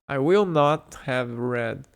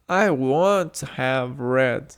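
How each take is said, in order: First: The negative is said as two full words. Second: The negative is contracted into one syllable. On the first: "I will not" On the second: "a forma contraída do will not é o won't"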